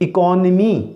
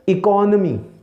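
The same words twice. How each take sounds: First: The vowel after the n sounds like ee. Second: The vowel after the n sounds like uh. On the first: The speaker calls it wrong. "निमी हम word इस्तेमाल करते हैं" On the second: The speaker calls it right. "नून के ऊपर हमने ज़बर"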